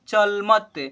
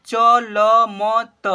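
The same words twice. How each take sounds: First: "चल मत" joined as two syllables; blended into one word. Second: "चल मत" as "च, ल, म, त", loud; spelled letter by letter. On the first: Teacher answering the children's question, blended. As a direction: run "चल मत" together, ending on त. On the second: Teacher spelling aloud for children, letter by letter. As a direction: draw out each letter of "चल मत" slowly. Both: Shown as a demonstration. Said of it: "क्या पढ़ेंगे बच्चों?".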